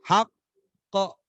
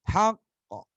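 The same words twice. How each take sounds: First: The final consonant is followed by a voiced vowel. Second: The final consonant ends in a light bounce. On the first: The speaker calls it wrong. "Bukan di haqqo. Bukan begitu" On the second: The speaker calls it right. "itu bukan dibunyikan, tapi karena pantulannya"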